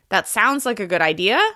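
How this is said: The pitch rises at the end of the sentence.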